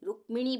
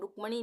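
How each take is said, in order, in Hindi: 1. 'm' के बाद 'i' स्वर सुनाई देता है। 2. 'm' और 'n' के बीच कोई स्वर सुनाई नहीं देता। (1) "रुक्मिणी बोल रहे हैं यहाँ पे हम" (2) "रुक्मणी नहीं बोल रहे हैं"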